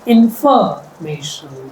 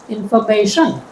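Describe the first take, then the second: First: The stress is on the second syllable. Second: The stress is on the fourth syllable. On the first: "If I stress the second syllable" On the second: "If I stress the fourth"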